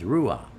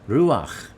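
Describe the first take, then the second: First: The word ends in a plain, soft h sound. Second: The word ends in a throaty ch sound. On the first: The speaker calls it wrong. "without the C there, it just says Ruach" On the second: The speaker calls it right. "Put the C in there and it's Ruach"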